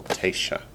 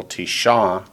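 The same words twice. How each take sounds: First: Tesha with the opening "Te" accented, dropping softer; front-stressed Tesha, tailing softly; stress on first syllable. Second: Tisha with the final "sha" accented; end-stressed Tisha; stress on last syllable. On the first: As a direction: lean on the start of Tesha. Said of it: "the feminine accents the first syllable". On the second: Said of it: "the masculine accents on the last syllable". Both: Shown as a demonstration.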